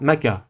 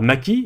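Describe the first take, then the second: First: The k is followed by an a vowel. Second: The k is followed by an i vowel. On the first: "vous ne dites pas maka" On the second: "vous ne dites pas maki"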